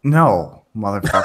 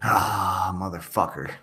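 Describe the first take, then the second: First: Louder barked curse with a laugh; military voice. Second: Low muttered curse; weak drill sergeant try; half-hearted military shout. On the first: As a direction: commit to the drill sergeant bark. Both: Shown as a demonstration. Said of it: "That's all you got?".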